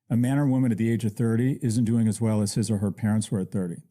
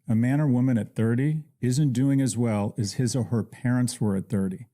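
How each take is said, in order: First: It is said at normal speed. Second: It is said a little more slowly.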